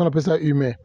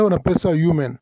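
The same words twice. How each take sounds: First: "humain" as French ü-MEH; no y sound or final n in "humain"; French pronunciation. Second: "human" as English YOO-men, final n sounded; English pronunciation. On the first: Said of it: "mais en français". (« humain » prononcé à la française) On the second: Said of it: "en anglais". (« human » prononcé à l'anglaise) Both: Shown as a demonstration.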